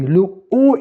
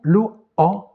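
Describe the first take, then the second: First: O as a tight closed vowel, loud and higher pitched. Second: O as an open vowel, tongue lower. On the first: Teacher comparing the two phonemes, closed O. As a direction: hit O loud, tongue high, vowel closed. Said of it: "il est prononcé plus haut". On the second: Teacher comparing the two phonemes, open O. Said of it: "plus bas". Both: Shown as a demonstration.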